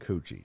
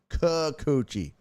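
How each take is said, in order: First: The name is cut short, missing its first syllable. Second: The name is said in full with three syllables. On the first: The speaker calls it wrong. "you're saying it wrong" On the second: The speaker calls it right. "Get it right"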